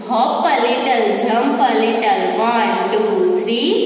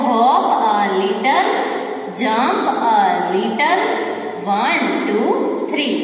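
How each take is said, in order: First: It is said at a quick pace. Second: It is said at a slow, normal pace.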